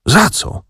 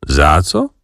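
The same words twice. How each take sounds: First: High, startled "Za co?" in disbelief; shocked question. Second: Smiling echo. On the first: Acted. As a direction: blurt out "Za co?" as if you can't believe it. Ignacy shocked by the news. (zaskoczone, wysokie „Za co?”) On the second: A narrator's reading. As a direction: toss back "Za co?" amused and unbothered. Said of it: "uśmiechnął się Wokulski". (spokojne, uśmiechnięte „Za co?”)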